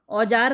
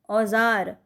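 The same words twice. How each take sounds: First: The middle consonant is an English-like 'j' sound. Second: The middle consonant is a buzzing 'z' sound. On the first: The speaker calls it wrong. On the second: The speaker calls it right.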